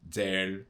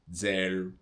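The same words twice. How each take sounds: The two takes are said the same way.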